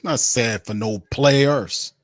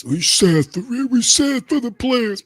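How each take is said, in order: First: Said in the usual way. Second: High, slow, whiny mock pity; sarcastic high whine of pity; mock sympathetic voice. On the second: Mocking those who pity players.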